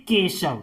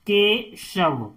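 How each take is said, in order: First: Said in the usual way. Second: "Keshav" slowly in pieces, के, then शव; "Keshav" drawn out for learners; syllable by syllable. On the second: Shown as a demonstration. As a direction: break "Keshav" after के with a short gap. Teacher splits word into syllables.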